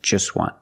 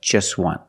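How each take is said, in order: The two takes are said the same way.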